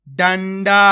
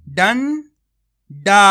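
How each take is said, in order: First: Said in the usual way. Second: डंडा slow with a rising end; teacher sounding out डंडा; drawn-out reading. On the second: Shown as a demonstration. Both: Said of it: "आपको मेरा तरीका देखना है".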